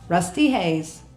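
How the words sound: It is said in an Australian accent. The speaker calls it wrong. "when I say it in my Australian accent, it's not as cool"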